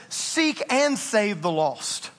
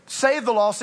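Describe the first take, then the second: First: "Seek and save the lost" said slowly, each word weighed, "and" stretched; stress on seek and save. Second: Said in the usual way. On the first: Shown as a demonstration. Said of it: "It says". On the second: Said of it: "it just doesn't say".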